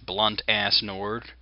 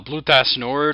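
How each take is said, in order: First: The name is said with an added n sound. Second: The name is said without the added n sound.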